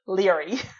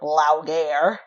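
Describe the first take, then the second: First: The name is said as the short 'Leary'. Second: The name is sounded out following its spelling. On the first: The speaker calls it right. "apparently it's pronounced Leary. Just Leary" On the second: The speaker calls it wrong. "I thought it was Laogair"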